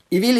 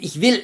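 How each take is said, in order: First: It is said in a Swabian dialect accent. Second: It is said in a standard German accent.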